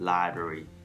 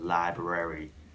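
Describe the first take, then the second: First: Library is said in a shortened, reduced form. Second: Library is said in full, all sounds clear. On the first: "much easier to say library" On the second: "instead of saying library"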